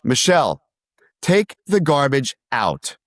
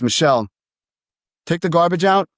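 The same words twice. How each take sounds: First: The voice falls at the end, like a command. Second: The voice rises at the end, like a question.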